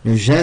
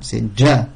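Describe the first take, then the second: First: The j is soft and continuous, like French j. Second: The j is hard, with the airflow briefly stopped. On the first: The speaker calls it wrong. "ça n'existe pas en arabe" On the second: The speaker calls it right. "Milieu de la langue avec le palais, et ça coupe le sang"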